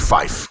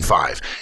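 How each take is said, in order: First: The word ends with an f sound. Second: The word ends with a v sound. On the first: The speaker calls it right. "you say fife" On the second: The speaker calls it wrong. "rather than five"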